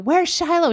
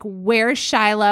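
First: High-pitched mock yell across a store; retold yell. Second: Said in the usual way. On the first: Mom across Ikea to her husband, retold yell. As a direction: call out in retold alarm. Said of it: "I'm, like, yelling across ikea". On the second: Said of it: "And I'm like".

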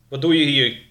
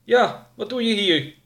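First: Put-on stern older man, loud demand; loud questioning from an armed older man. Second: High-pitched younger sidekick echo; high, insistent echo; younger man. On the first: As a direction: challenge a stranger loudly. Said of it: "vroeg de oudere man". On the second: Acted. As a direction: parrot the boss's challenge in a high voice. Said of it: "herhaalde de jongere".

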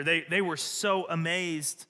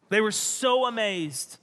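First: Said in the usual way. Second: "so" pitched up and stretched; raised, drawn-out emphasis on "so"; stress on SO. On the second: Acted. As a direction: lean hard on "so" to show amazement. Repeats line with stronger stress.

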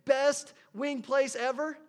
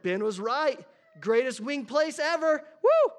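First: Slow and loud, spelling out the review; typing it out. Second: Loud, high, thrilled restaurant fan; excited rave. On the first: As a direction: say each word slowly as you type. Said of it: "and you typed it in". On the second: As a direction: cheer it like the best meal ever. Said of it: "you got so excited". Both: Retold or imitated.

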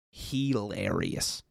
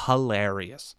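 First: Hilarious said slowly and softly for weight; drawn-out emphasis. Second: Said in the usual way. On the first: Shown as a demonstration. Insisting to viewers the show is hilarious, slow and soft. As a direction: stretch Hilarious out, hushed.

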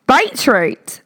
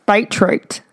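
First: Beetroot! with a lifted exclaiming pitch; exclaimed beetroot. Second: Said in the usual way. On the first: Shown as a demonstration. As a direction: call out Beetroot! brightly.

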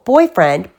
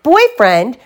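First: First outraged echo, a bit louder; indignant. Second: Higher, louder outraged rising cry; shouted. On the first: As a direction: repeat the word in disbelief. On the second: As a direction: throw the word back at him, louder now. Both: Acted. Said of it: "shouted Sister".

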